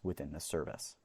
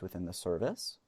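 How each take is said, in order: First: The voice ends on a low pitch. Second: The voice ends on a high pitch. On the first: The speaker sounds confident. The speaker calls it right. "end my conversations in a deeper tone" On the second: The speaker seems unsure of what they are saying. The speaker calls it wrong. "end all of your words on a high-pitched tone"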